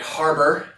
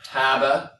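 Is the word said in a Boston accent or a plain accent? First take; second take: plain; Boston. First: The word is said with a plain accent. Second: The word is said with a Boston accent.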